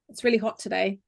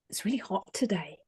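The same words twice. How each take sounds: First: It is said openly, not like a secret. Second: It is said like telling a secret.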